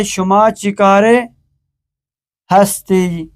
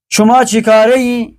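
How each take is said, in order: First: Full ہستی set apart after چیکارے; pause, then complete hasti for ہستی; written Persian form. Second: چیکارے ای joined as chikare-i; short -i ending after چیکارے; spoken Persian form. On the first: Teacher supplies the written ending, separate ہستی. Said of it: "Farsi نوشتاری". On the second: Teacher reads the exercise, colloquial چیکارے ای, higher. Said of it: "Farsi گفتاری". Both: Shown as a demonstration.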